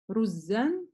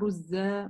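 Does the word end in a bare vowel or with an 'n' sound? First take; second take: n sound; bare vowel. First: The word ends with a final n sound. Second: The word ends in a bare vowel, no n. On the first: The word is read inside a running sentence. "При предложении у нас «танвин»" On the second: The word is read at a stop. "При остановке у нас алиф"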